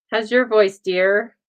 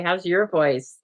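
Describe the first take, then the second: First: Playful, louder and sugary; teasing sweet voice. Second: Said in the usual way. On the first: Pretend. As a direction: coo it like a doting granny.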